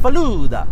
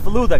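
First: The word is said with an Italian-sounding accent. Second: The word is said without an Italian-sounding accent. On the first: The speaker calls it wrong. "It's not Falooda. It's not Italian, guys" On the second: The speaker calls it right. "It's Falooda, guys"

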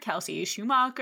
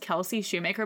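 First: The surname ends with the sound 'macher'. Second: The surname ends with the sound 'maker'. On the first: The speaker calls it wrong. "people have mispronounced my name" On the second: The speaker calls it right. "Shoe, oh like the shoe, and then Maker"

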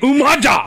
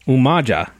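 First: It is said in a put-on, streetwise character voice. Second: It is said in a plain, normal voice.

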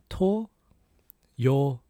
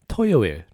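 First: It is said slowly. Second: It is said faster.

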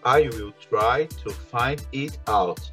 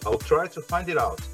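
First: The words are said separately, not linked. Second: The words run together, linked smoothly.

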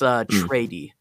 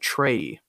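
First: The name is said as Trady. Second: The name is said as Trey. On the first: The speaker calls it right. "but it's Trady" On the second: The speaker calls it wrong. "I said Trey, like, that's how I pronounced it"

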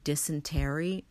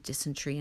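First: The word is said with an American accent. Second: The word is said with a South African accent. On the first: "Americans say dysentery" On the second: "in my South African way"

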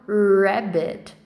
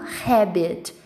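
First: It starts with an English R sound. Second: It starts with a breathy, H-like sound. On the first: The speaker calls it right. "eu falo rabbit" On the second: The speaker calls it wrong. "Eu não falo rabbit"

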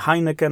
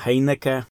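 First: The name is said in a non-Dutch way. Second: The name is said closer to Dutch pronunciation. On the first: The speaker calls it wrong. "nie Heineken" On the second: The speaker calls it right. "a Heineke"

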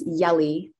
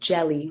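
First: The name begins with a 'y' sound. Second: The name begins with a 'j' sound. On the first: This is how most people say the name. The speaker calls it wrong. "everyone says Yelly" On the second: This is how the name is really said. The speaker calls it right. "it's actually jelly, like peanut butter and jelly"

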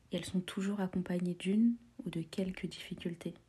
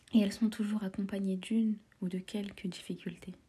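The two takes are said the same way.

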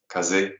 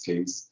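First: It is said the Japanese way, like 'kah-zeh'. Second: It is said the English way, like 'case'. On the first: It follows the original Japanese word for wind. "The correct way of saying the word is kaze, because it's from the Japanese wind" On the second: It is an Americanized version that is easier to say. "because we can Americanize things. It's easier for us"

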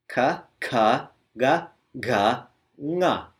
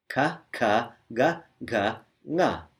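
The two takes are said the same way.

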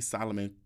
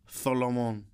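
First: The name is said plainly, without a lisp. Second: The name is said with a Spanish-style lisp. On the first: The name as usually said. The speaker calls it wrong. "don't even call me Solomon" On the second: It claims Spanish ancestry. The speaker calls it right. "I'm speaking with a lisp"

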